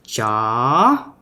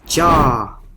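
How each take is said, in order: First: The pitch rises high through the word. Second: The pitch stays level through the word. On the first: It becomes a different word. "I raise my voice very high" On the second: It means to give. "ja is the Vietnamese verb for to give"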